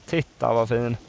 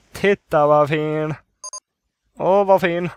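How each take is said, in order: First: Said in the usual way. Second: Louder, slow, gushing admiration; drawn-out admiration. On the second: Real, not acted. Player admiring the new pool, gushing and drawn out. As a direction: stretch the words out in loud delight.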